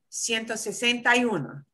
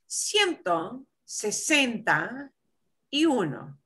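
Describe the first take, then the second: First: It is said at a normal, quicker speed. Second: It is said slowly and carefully.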